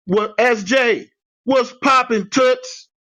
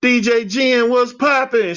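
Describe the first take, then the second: First: High, slow, hyped-up hello; hyped greeting. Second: High, bright hyped-up hello; bouncy greeting. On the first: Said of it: "I would type". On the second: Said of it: "my normal self". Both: Retold or imitated.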